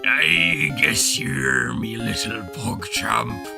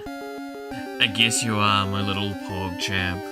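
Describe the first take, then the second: First: It is said in a gruff put-on pirate voice. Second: It is said in the speaker's normal voice.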